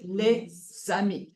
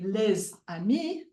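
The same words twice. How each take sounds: First: "les amis" as "lé zami", z opening the second word; French "les amis" with the linking z carried onto "amis"; liaison at word start. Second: "les amis" with the z closing "les", then a break before "amis"; French "les amis" split after the z sound of "les"; liaison at word end. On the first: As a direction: break after "les", then begin "amis" with a z. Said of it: "at the beginning of word two". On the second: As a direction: say "les amis" as "lez ami", z stuck to the first word. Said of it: "not at the end of word one". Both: Shown as a demonstration.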